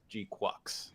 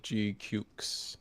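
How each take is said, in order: First: The second part sounds like 'quux'. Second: The second part sounds like 'cukes'. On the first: This is the official pronunciation. "it was officially G Quux" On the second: This is the speaker's own habitual pronunciation. "I pronounce it as G Cukes"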